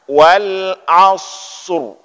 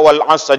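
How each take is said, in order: First: The final r is pronounced, heavy and full. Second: The final r sound is left out entirely. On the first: The speaker calls it right. "maka bacaannya wal asr" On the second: The speaker calls it wrong. "nggak usah baca rohnya. Baca wal asr saja misalnya. Itu yang bahaya"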